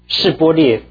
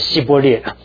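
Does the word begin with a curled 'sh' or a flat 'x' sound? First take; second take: curled sh; flat x. First: The first syllable starts with a curled 'sh' sound. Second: The first syllable starts with a flat 'x' sound.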